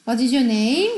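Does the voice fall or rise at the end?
rise. The pitch rises at the end. The speaker calls it wrong.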